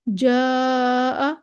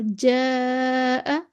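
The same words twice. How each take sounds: First: "जा" held long with a heavy, dark vowel; broad, back alif in "जा"; मोटा अलिफ. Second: "जा" held very long with a thin, light vowel; slow, light, fronted alif in "जा"; बारीक अलिफ. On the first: ("जा" का अलिफ मोटा, खींचकर) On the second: ("जा" का अलिफ बारीक, लंबा खींचकर) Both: Shown as a demonstration. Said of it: "वाज़े फ़र्क आपको लग रहा है".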